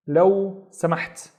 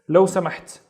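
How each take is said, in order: First: Word by word. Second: Said in the usual way. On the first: Shown as a demonstration. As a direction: pause between لو and سمحت. Teacher modelling please.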